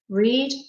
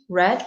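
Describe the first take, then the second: First: The vowel is a long 'ee' sound. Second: The vowel is a short 'e' sound. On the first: It is the present tense. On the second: It is the past tense.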